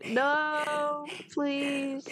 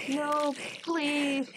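First: Higher, pleading scared voice; horror game streamer. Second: High, pleading, half-laughing; horror game streamer. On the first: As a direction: beg the monster to stop. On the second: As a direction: plead with mock terror. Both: Real, not acted. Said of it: "horror game streamer".

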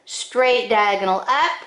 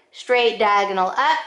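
The two takes are said the same way.

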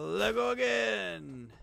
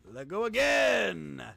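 First: Said in the usual way. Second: Loud, slow shout. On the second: Real, not acted. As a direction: bellow the command. Repeated shouted command.

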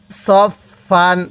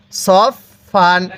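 Both takes have the same delivery.

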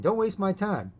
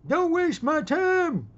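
First: Said in the usual way. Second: High, drawn-out yell; furious shout. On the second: Acted. Old man warns a young punk off, shouting furiously. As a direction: roar it slowly at full force. Acted outburst at time-waster.

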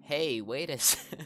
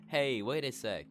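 First: Put-on high, loud, slow girly cry with a laugh; a laughing girl calling out to wait; hammed-up [name] shout. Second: Put-on high, loud, slow girly call; hammed-up [name] shout. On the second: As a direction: call after her like a stuck girl. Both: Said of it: "I'm not doing voice acting".

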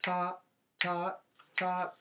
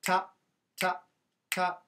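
First: Slightly longer "Ta", rest after each; higher "Ta" held briefly, then released into a gap; eighth-note "Ta". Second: Each "Ta" as short as possible; tiny percussive "Ta", cut off at once before silence; staccato "Ta". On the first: Teacher contrasting eighth rests with staccato, a little longer "Ta". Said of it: "Eighth rest". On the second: Teacher contrasting staccato with eighth rests, very short "Ta". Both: Shown as a demonstration.

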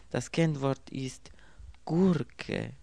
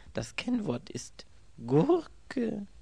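First: Whispered password. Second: Slow and higher, the word Gurke falling in disbelief; puzzled man repeats the password; incredulous repeat. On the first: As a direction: hush it, then land on the word Gurke. Secret password on phone. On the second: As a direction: turn Das Kennwort ist Gurke over slowly, not believing it. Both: A narrator's reading.

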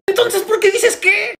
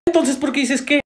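First: Loud, very high, drawn-out retort; exasperated shout. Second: Higher-pitched exasperated retort. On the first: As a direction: blow up in comic exasperation, slowly. Acted squabble, escalated repeat. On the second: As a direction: snap back with mild exasperation. Acted squabble, first round. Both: Acted.

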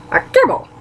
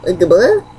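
First: A gibble. high then falling flat as a statement; confirming fall. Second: A gibble? rising up at the end as a question; questioning rise. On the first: Yoshi confirms the trial with a falling tune. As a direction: confirm it firmly. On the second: Hearing the trial, asks back with a rise. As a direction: ask it back, puzzled. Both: Acted.

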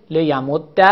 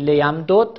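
First: لیمد with a doubled dal ending in short a; assimilated, fatha ending. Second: لیمدد with both dals sounded separately; unassimilated form. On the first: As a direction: merge the dals of لیمد and close on -dda. (لیمد با دال مشدد و فتحه) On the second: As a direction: say لیمدد unmerged, ending on a still dal. (لیمدد بدون ادغام، با دو دال جدا) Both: Shown as a demonstration.

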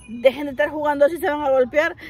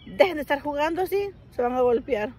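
First: Louder, fast, mocking echo of the father's words; mocking repeat. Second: Said in the usual way. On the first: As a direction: parrot dad back in disbelief. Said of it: "¿En serio?". (repetición burlona e incrédula, más fuerte y rápida) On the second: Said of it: "y me dijo".

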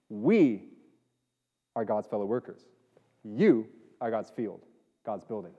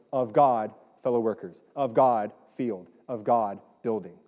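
First: "We" and "You" punched and set apart, the rest dropping away; stress on WE and YOU. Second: "of God" hit harder at each phrase start, the noun after it falling away; stress on GOD. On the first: Pastor showing how the English verse reads, stress on "We" and "You". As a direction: isolate "We" and "You", then let each phrase fall. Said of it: "it puts the emphasis on we versus you".

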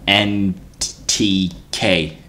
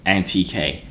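First: Stumbling over the acronym with long gaps; searching for each letter, with pauses between; halting stutter. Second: Said in the usual way. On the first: Real, not acted. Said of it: "Why did I stutter so hard". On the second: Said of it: "trying to find the acronym".

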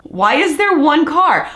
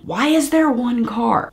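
First: Higher and louder, slow, with "there" stressed; emphatic repeat. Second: Said in the usual way. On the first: Shown as a demonstration. Asking viewers again in disbelief, with "there" stressed. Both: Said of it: "repeated louder".

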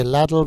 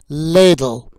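First: "ladle" said as LAD-ul, short a as in cat; the common mistake: "ladle" with a flat short a; wrong pronunciation. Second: "ladle" said as LAY-dul, long a as in day; correct pronunciation. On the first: Teacher showing learners the wrong "ladle" with a short a. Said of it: "but it's ladle". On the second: Teacher giving learners the correct "ladle" with a long ay. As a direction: stress the right way: "ladle" with a long ay sound. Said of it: "Some people say ladle". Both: Shown as a demonstration.

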